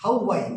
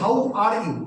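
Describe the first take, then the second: First: The r sound in 'are' is dropped. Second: The r sound in 'are' is pronounced. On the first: The speaker calls it right. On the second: The speaker calls it wrong.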